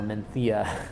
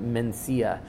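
First: The middle consonant is a th sound. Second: The middle consonant is an s sound.

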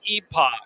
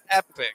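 First: The word is said the British way. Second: The word is said the American way. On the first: "if you're British, it's epoch" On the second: "If you're American, it's epic"

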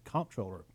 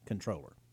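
First: The word begins with a 'comp' sound. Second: The word begins with a 'con' sound. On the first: It matches the spelling so voters won't doubt him. "you'll see I said comptroller" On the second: It is the technically correct form. "technically it is pronounced controller"

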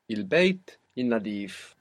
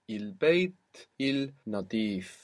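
First: The L before nadif merges into the N. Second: The L before nadif is clearly pronounced.

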